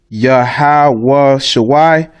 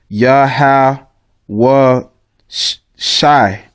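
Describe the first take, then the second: First: The second word has an extra middle sound. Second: The second word is short, without the middle sound. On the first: The speaker calls it wrong. "that's the wrong pronunciation" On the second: The speaker calls it right. "you would take this this Y out, and actually it's just Yahweh Shai"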